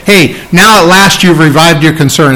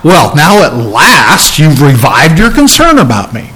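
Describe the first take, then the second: First: Said in the usual way. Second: A snide, grudging "Well, now at last"; resentful, sarcastic tone. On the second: Shown as a demonstration. Pastor mocking the wrong attitude of Paul's thanks, sarcastic. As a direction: lean on "about me" like a complaint. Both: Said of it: "that wasn't the attitude".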